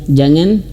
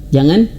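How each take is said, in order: Both takes have the same delivery.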